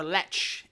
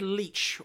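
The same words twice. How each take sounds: First: "Leitch" said like "letch", short e; alternative pronunciation. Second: "Leitch" said like "leech", long ee; unsure pronunciation. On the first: Host offers second guess at surname, "Leitch" as "letch". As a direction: say "Leitch" to rhyme with "fetch". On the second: Host guesses at director's surname, "Leitch" as "leech". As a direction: say "Leitch" to rhyme with "beach". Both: Shown as a demonstration. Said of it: "I'm gonna pronounce this wrong".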